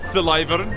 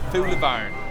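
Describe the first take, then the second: First: The last syllable sounds like 'vern'. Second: The last syllable sounds like 'barn'. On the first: The speaker calls it wrong. "you see the way he pronounced it?" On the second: The speaker calls it right. "It's pronounced Thulibarn"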